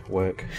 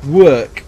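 First: Said in the usual way. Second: "work" blurted high and loud, oddly stretched; said weird. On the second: Real, not acted. Player oddly stressing "work" while explaining, weird loud "work". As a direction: bark out "work" high and strange. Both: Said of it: "I said it weird".

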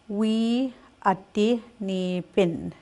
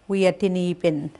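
First: "We ati ni pin" spoken slowly, each word apart. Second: Said in the usual way. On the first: Shown as a demonstration. Teacher models the spring phrase slowly.

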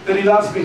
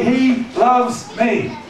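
First: Said in the usual way. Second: "He loves me" high and very slow, word by word; emphatic testimony. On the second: Acted. Preacher models a believer's testimony, "He loves me" slow and emphatic. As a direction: space out "He loves me", each word weighted and pitched up.

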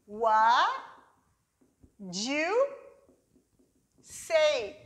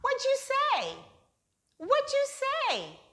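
First: Slow, What do you say with long pauses; slow, word by word. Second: Much higher, What do you say squeezed into wa ti se; fast native reduction. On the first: Teacher introducing the second reduction slowly. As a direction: lay each word down slowly. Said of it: "Vamos reduzir mais uma vez". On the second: Teacher showing the quick reduced American form. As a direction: fire it off quick and high like a native. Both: Shown as a demonstration.

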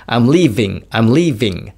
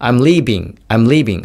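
First: "leaving" with a buzzing V in the middle; clear English V. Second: "leaving" said "leebing", lips closing for a B; sloppy V as B. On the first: Teacher demonstrating the correct take, "leaving" with a real V. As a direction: stress "leaving", teeth on lip for the V. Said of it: "Vの音がすごい聞こえます". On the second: Teacher demonstrating the wrong take, "leaving" as "leebing". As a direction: swap the V in "leaving" for a B. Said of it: "もしこれが例えば中途半端になって". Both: Shown as a demonstration.

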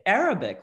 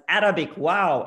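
First: Said in the usual way. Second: "Arabic, wow" with her dad's Arabic accent, Arabic stressed and loud. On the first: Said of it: "But it comes out when I try to say it with his accent as". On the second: Shown as a demonstration. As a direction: say "Arabic, wow" the way her Arabic-speaking dad would. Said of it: "when I try to say it with his accent as".

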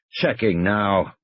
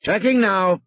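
First: Slow, drawn-out mocking echo; stretched-out, scornful repetition; sarcastic. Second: Said in the usual way. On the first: A narrator's reading. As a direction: mimic the reply with dry sarcasm. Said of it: "he repeated sarcastically". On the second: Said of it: "Arnold said and clicked off".

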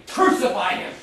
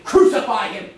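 First: Same cry again but falling back to normal level; retold shout, fading. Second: Mock crowd yell, a bit louder; half-hearted crowd chant, louder; retold shout. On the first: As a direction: let the mob's chant die off. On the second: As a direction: echo the mob's cry with a raised voice. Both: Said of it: "They just kept shouting".

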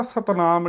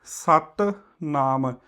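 First: ਸਤਨਾਮ run together as one word; single light t in ਸਤਨਾਮ, no break; wrong joined pronunciation. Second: ਸਤਨਾਮ as two words, doubled t in ਸਤ; ਸਤਨਾਮ split slowly, with a held t before ਨਾਮ; pronunciation demo. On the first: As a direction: say ਸਤਨਾਮ without pausing after ਸਤ. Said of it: "ਇਹਨੂੰ ਇਕੱਠਾ ਸਤਨਾਮ ਨਹੀਂ ਕਹਿਣਾ". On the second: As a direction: say ਸਤ, pause, then ਨਾਮ. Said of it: "ਇਸ ਦਾ ਜਦੋਂ ਅਸੀਂ ਉਚਾਰਨ ਕਰਨਾ ਹੈ". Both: Shown as a demonstration.

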